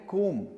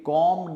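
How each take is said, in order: First: The vowel is a long 'oo' sound. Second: The vowel is a short open 'o' sound. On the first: The speaker calls it right. "इसको हम बोलते हैं कूम" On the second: The speaker calls it wrong. "ये गलत तरीका है इसको कहने का"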